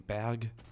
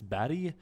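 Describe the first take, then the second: First: The word is said with a German pronunciation. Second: The word is said with a Swedish pronunciation. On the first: "the Germans don't say Barry, they say Berg" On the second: "otherwise in Swedish it's Barry"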